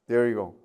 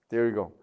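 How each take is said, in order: Both takes have the same delivery.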